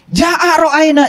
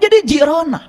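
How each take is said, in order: First: It is said slowly and fully. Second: It is said fast and clipped.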